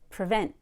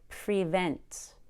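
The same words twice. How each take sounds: First: The first syllable is a quick relaxed uh. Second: The first syllable has a clear long E. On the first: The speaker calls it right. "Pre becomes pra. It's super fast and super relaxed" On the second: The speaker calls it wrong. "Notice that I don't say prevent. We don't need to be that clear on pre"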